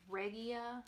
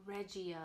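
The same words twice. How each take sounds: First: "Regia" with a g as in get; hard g pronunciation. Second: "Regia" with a j sound, slowly; soft g pronunciation. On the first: Knitter offering another yarn name reading, "Regia" with hard g. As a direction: say "Regia" as REG-ee-uh. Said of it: "however you pronounce it". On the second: Knitter unsure of the yarn name, "Regia" with soft g. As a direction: say "Regia" as REJ-ee-uh. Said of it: "I don't know if I'm saying this right". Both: Shown as a demonstration.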